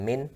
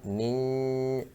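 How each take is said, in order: First: The final n is fully clear. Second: The final n is blurred into a nasal sound. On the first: The speaker calls it wrong. "bukan min" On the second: The speaker calls it right.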